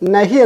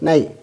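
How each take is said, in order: First: A clear h sound is said from the mouth. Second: The h is dropped and the vowel is nasalized. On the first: The speaker calls it wrong. "നമ്മൾ നഹി എന്ന് ഉച്ചരിക്കുന്നൊരു വാക്കുണ്ട്" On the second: The speaker calls it right. "മൂക്കുകൊണ്ടാണ് പറയേണ്ടത്"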